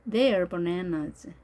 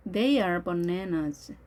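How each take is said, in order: First: "They are" merged into one syllable, like they're; slow model reading, contracted "They are"; contracted form. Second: THEY ARE as two separate words; careful model reading with a distinct "are"; full form. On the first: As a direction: run "They are" together as "there". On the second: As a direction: say "They are" uncontracted, slowly. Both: Shown as a demonstration.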